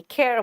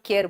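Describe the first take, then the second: First: American-style curled r at the end; American rolled r. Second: Plain "kay-ar" for केयर; Indian-English pronunciation. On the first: Retold or imitated. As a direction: imitate American "care". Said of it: "आर को रोल करेंगे". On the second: Shown as a demonstration. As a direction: say केयर without curling the r. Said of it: "हम लोग केयर बोलते हैं".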